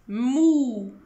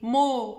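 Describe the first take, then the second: First: The vowel is close, with lips tightly rounded. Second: The vowel is open, with lips barely rounded. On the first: The speaker calls it right. "faites bien la bombe du mime" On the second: The speaker calls it wrong. "mo, c'est faux"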